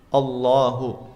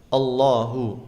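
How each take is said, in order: Both takes have the same delivery.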